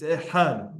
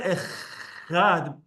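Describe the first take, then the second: First: "ehad" with a breathed, throaty het, no scrape; "ehad" with h from the throat, stressed on the end; proper het sound. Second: "echad" with a long, scraping kh instead of het; "echad" drawn out on a harsh chaf; wrong chaf sound. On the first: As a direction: soften the chaf in "ehad" to a smooth het. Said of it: "it's ehad". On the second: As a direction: overdo the rasping kh in "echad". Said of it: "It's not echad". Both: Shown as a demonstration.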